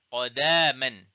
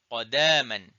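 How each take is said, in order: Both takes have the same delivery.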